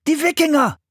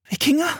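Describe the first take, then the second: First: High-pitched warning shout; urgent, high exclamation; alarmed cry. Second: Put-on high girl's voice, questioning; high, rising query; startled question. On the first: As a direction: cry out the danger like a frightened boy. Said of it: "schrie Philipp". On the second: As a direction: echo the word in disbelief. Girl reacts to brother's alarm. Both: A narrator's reading.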